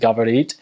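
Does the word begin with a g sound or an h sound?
g sound. The word begins with a hard g sound. This is the usual Russian pronunciation. "the verb to talk is gavarit"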